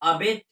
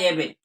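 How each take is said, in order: First: The first vowel is a short 'uh' sound. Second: The first vowel is an 'eh' sound. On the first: "अबेट भी बोल सकते हैं" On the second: "एबेट भी बोल सकते हैं"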